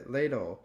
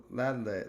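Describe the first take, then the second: First: Said in the usual way. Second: Ladle said with short a, like "laddle"; misread ladle. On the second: Real, not acted. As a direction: say ladle as "LAD-ul". Word list, retrying a misread word.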